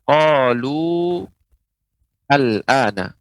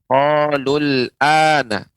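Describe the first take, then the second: First: The vowel is lengthened before a separate word. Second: The words run together with a short vowel. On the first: The reader stops after the word. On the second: The reading continues without stopping.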